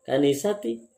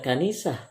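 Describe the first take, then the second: First: The word ends with '-ati'. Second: The word ends with '-ah'. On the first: The speaker calls it right. "seharusnya dibaca" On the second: The speaker calls it wrong. "tidak dibaca kanisah"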